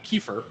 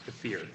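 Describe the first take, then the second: First: It is said the common English way. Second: It is said the Russian way. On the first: The speaker calls it wrong. "I think a lot of people say" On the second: The speaker calls it right. "in Russian it's pronounced kefir"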